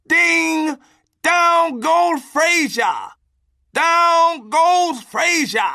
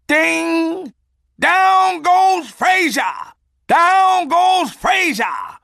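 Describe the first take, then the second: First: Shouted knockout call, much higher, louder and slow; boxing announcer. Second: Hammed-up ringside call, much higher, louder and slow; boxing announcer. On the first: Retold or imitated. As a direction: roar it like the ref just saw a knockdown. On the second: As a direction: bellow it like a ringside announcer calling a knockout. Boxing announcer call, knockout punchline.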